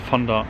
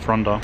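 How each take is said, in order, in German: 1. Der Name hat kein r nach dem F. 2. Der Name hat ein r nach dem F. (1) "Ich dachte immer, es heißt Fonda" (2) "Aber es ist Fronda"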